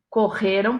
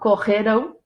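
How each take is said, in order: First: The stress is on the second-to-last syllable. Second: The stress is on the last syllable. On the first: The action happened in the past. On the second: The action will happen in the future.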